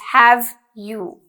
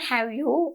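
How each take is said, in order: First: The v sound in 'have' is clear. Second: The v sound in 'have' is unclear. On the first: The speaker calls it right. "you need to make sure you pronounce it clearly" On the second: The speaker calls it wrong. "it's not have you"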